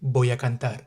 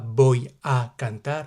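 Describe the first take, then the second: First: The words are linked smoothly into one flow. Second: The words are said separately, without linking. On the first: The speaker calls it right. "n'hésite pas à faire les liaisons" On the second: The speaker calls it wrong. "tu diras pas"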